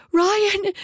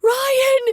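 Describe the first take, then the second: First: High, loud scream of the name. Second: Even higher, piercing scream of "Ryan!"; desperate scream. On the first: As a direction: shriek "Ryan!" in terror. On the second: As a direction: shriek "Ryan!" with rising panic. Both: A narrator's reading. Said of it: "Kara screamed through an opening".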